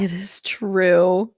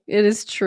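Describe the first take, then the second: First: Slow, breathy whisper. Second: Said in the usual way. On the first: Real, not acted. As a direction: whisper it slowly. Soft agreeing aside.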